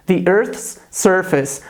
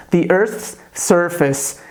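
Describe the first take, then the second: First: "The Earth's surface." slowly and clearly; teacher models phrase, slow and careful. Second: "The Earth's surface." repeated slowly, crisp th; teacher repeats for students, slow. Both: Shown as a demonstration. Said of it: "Então eu posso dizer em inglês".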